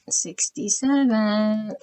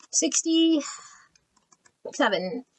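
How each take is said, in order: First: Slow drawn-out repeat. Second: Breathy high whisper of a number. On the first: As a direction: say it slowly, aloud this time. Repeats number slowly aloud. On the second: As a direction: whisper it slowly to yourself. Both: Real, not acted.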